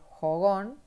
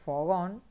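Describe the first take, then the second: First: The word starts with a breathy h-like sound. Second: The word starts with a clear f sound. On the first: It is how country people say it. "también la J por la F" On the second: It is the standard form of the word. "que es fogón"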